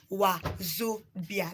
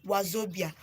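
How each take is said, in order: First: "Wazobia" slowly split as wa, zo, bia; slow teaching "Wazobia", pausing after wa and zo; syllable by syllable. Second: Said in the usual way. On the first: Shown as a demonstration. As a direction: separate the three parts of "Wazobia" for a learner. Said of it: "Wa means come". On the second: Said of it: "Wazobia, um, signifies".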